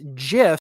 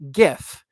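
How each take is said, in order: First: The word begins with a j sound. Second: The word begins with a hard g sound. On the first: The speaker calls it wrong. "GIF implies J" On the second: The speaker calls it right. "I say GIF"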